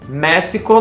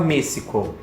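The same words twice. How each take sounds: First: The stressed e is said open. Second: The stressed e is said closed. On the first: The speaker calls it right. "o mé é a parte mais tônica" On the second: The speaker calls it wrong. "por isso que não se fala México"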